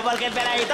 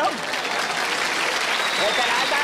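First: Said in the usual way. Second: Peladito stretched slowly with a rise; drawn out peladito. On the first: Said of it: "explaining the joke". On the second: Shown as a demonstration. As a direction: drag out peladito. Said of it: "drawn out for emphasis".

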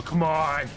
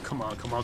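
First: Bursting out, exasperated; impatient exclamation. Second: Muttered under the breath, impatient; impatient muttering. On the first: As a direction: let the impatience spill over. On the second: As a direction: mutter it low and restless. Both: Retold or imitated. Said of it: "muttering to himself".

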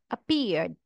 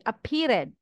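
First: Said in the usual way. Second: "appeared" with -ed sounded as an extra syllable, "uh-peer-id"; wrong extra syllable. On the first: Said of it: "No extra syllable". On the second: Shown as a demonstration. Teacher shows learners what not to say, "appeared" mispronounced with an added "id" syllable. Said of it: "You will not say".

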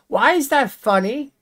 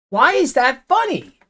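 First: High, rising, incredulous why; irritated question. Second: High, firm, falling on funny; insistent demand. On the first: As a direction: ask it in disbelief, pitch going up at the end. Annoyed at viewer's laugh. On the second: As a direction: press the question down hard and final. Repeats annoyed at viewer. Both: Real, not acted.

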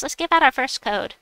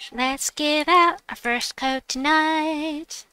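First: Said in the usual way. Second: Slow, high, showy announcement; drawn-out announcement. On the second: Pretend. Streamer announces first code to viewers, drawn-out and showy. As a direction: stretch it out high like a show host. Repeats the line as performed announcement.

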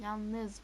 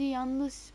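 First: "Yalnız" said clearly with a proper l and z; careful "Yalnız" after a slip; corrected word. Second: "yalnız" blurred into "yanlış", dragged out slowly; tongue slips, "yalnız" comes out as "yanlış"; mumbled "yalnız" sounding like "yanlış". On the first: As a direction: fix the word, say "Yalnız" cleanly. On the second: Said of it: "Yalnız, pardon". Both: Real, not acted.

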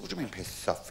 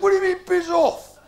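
First: Low, hushed acted protest; quietly put-out customer; soft affronted query. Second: Loud, high parade-ground protest; barked military indignation, hammed up; affronted mock guardsman. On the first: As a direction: question the refusal softly. Customer queries being refused. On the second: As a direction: question the refusal like a drill sergeant. Guardsman customer queries being refused.

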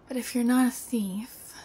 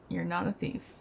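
First: "not" pushed higher and louder; stress on not. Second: Said in the usual way. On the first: Acted. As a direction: lean on the word "not" as you challenge.

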